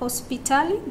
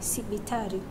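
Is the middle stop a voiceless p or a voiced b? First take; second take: voiceless p; voiced b. First: The middle stop is a voiceless p. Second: The middle stop is a voiced b. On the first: This is the Kiswahili source form. "Do you see P to B?" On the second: This is the adapted form used in the language. "Do you see P to B?"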